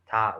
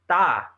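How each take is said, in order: First: The t sound is weak and relaxed. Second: The t sound is strong and tense. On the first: "like just like at rest" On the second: "that's like the emphasis"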